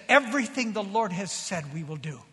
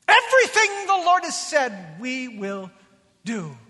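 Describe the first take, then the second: First: Said in the usual way. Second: Ringing, drawn-out pledge imitating the people; bold proclamation. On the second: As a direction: proclaim it as a whole crowd's vow.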